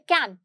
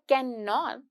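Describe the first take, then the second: First: The contracted form "can't" is said. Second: The full form "can not" is said. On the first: "और एक बोलिए कैंट" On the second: "पूरा word बोला आपने"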